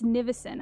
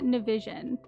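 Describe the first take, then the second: First: The first syllable sounds like 'ni'. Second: The first syllable sounds like 'na', as in television. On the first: The speaker calls it right. "It's Nivison, I think" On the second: The speaker calls it wrong. "It's not Navision"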